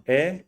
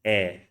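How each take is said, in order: First: "e" as a tense vowel, mouth barely open; narrow, tense "e"; common tense E. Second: "e" with mouth a little open; lower-pitched, open "e" as in bed; open flattened E. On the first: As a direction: say "e" with a tight, raised tongue. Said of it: "The common e". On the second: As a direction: say "e" with a flattened, wide tongue. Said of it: "go one to the other". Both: Shown as a demonstration.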